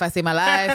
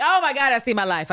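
First: Said in the usual way. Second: Louder, higher gasp of recognition; mock revelation. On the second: Host mimicking Anne seeing her life in a novel, louder. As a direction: realize it all at once. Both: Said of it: "she's like".

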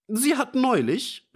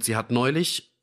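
First: Put-on high-pitched indignant old man cutting in; calling out, interrupting. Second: Faltering. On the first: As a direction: burst in over the colonel, much higher. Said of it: "rief der alte Fischer dazwischen". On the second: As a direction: trail off, stuck for words. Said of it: "stockte er". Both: A narrator's reading.

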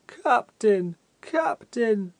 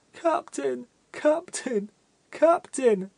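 First: Higher, louder, more pathetic wailing call; a blank-faced man pleading even more piteously; piteous cry. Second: A weeping fat man crying out desperately; heart-rending calling. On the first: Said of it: "with increased pathos in his voice". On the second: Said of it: "in most heart-rending accents". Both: A narrator's reading.

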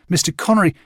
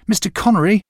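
First: Higher, calling after him. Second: Higher and louder, urgent call. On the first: Boy calling after the departing Connery, raised voice. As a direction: call out to someone leaving. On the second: Boy calling a second time after Connery, louder and higher. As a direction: call again as he walks away. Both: A narrator's reading. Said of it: "I called to him".

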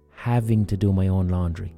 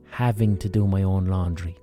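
The two takes are said the same way.

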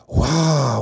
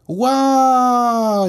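First: Relieved, breathless wow; laughing with relief. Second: Wide-eyed, amazed wow; excited exclaim. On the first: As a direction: laugh off the close call. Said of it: "dit Ludo en rigolant". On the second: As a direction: gasp it out in wonder. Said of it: "s'écrie Anatole". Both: Acted.

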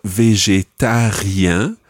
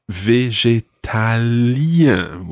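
First: "végétarien" with a French r in the middle, -ien nasal; R sound. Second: "végétalien" very slowly, the l clearly sounded. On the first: Teacher sets "végétarien" against the vegan word, r sounded. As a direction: say "végétarien" with the r clearly. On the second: Teacher models "végétalien" slowly, marking its l sound. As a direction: drag out "végétalien", leaning on the l. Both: Shown as a demonstration. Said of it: "with an L sound in there".

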